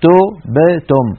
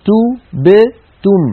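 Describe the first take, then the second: First: تبتم very slow as "to-b-tom"; تبتم stretched syllable by syllable, "o" for "u"; faulty damma. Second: تبتم very slow and high, "tu-b-tum"; تبتم stretched out with tightly rounded vowels; correct damma. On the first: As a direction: break تبتم up with open "o" vowels. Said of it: "لا نقول تبتم". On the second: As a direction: separate each syllable of تبتم with a pure "u". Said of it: "بل نقول تبتم". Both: Shown as a demonstration.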